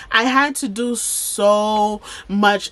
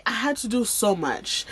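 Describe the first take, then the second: First: "so" drawn out long and slow; emphatic repeat. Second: Said in the usual way. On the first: Real, not acted. Telling viewers about all the hospital tests, emphatic. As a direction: lean on "so much", stretching it out.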